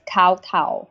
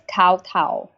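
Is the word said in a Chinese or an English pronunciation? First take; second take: English; English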